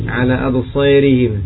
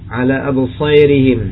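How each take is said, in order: The two takes are said the same way.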